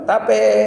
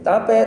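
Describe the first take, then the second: First: The word is called out slowly, drawn out. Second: The word is called out quickly, rapidly repeated.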